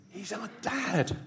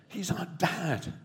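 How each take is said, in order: The two takes are said the same way.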